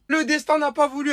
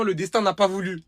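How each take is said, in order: First: Much higher, louder lament; emphatic. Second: Said in the usual way. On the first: Real, not acted. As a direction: cry out at fate's cruelty. Repeats the phrase with emphasis.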